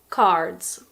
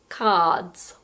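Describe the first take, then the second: First: It has an American accent with the R pronounced. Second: It has a British accent with a silent R.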